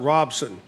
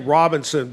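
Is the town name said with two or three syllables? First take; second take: two; three. First: The name is shortened to two syllables. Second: The name is said in full with three syllables. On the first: Locals say it this way. "locals call it Robson" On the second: An outsider says it this way. "you say Robinson"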